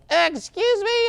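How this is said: It sounds shy and timid. The speaker feels unsure about interrupting. "the shy ones that are like"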